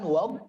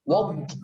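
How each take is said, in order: First: The d is held with no air escaping. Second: The d is released with escaping air. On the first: The speaker calls it right. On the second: The speaker calls it wrong. "jangan keluar anginnya, jangan"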